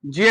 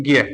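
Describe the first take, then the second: First: ज्ञ said in its pure, textbook form, as the teacher says it ought to be; pure pronunciation. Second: ज्ञ said the everyday way people actually say it, not the pure form; everyday pronunciation. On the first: Teacher to students, showing the correct ज्ञ. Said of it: "इसका उच्चारण तो क्या होना चाहिए". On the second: Teacher to students, showing how ज्ञ is commonly said. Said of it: "लेकिन हम क्या करते हैं". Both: Shown as a demonstration.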